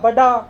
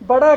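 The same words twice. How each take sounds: First: The middle consonant is a plain stopped d sound. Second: The middle consonant is a flapped retroflex sound. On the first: This is the regional dialect form. "डाल का इस्तेमाल" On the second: This is the standard form. "अड़े की बजाय"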